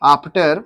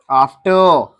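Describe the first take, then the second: First: After with a final r, tune rising; r sounded. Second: After ending in an open schwa, tune falling; r dropped. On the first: Teacher showing the class a choice, After with r sounded. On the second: Teacher showing the class a choice, After without the r. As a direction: leave the final r of After silent. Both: Shown as a demonstration. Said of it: "After या after".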